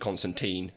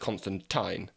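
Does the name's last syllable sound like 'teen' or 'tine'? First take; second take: teen; tine. First: The last syllable sounds like 'teen'. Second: The last syllable sounds like 'tine'. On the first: The speaker calls it wrong. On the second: The speaker calls it right.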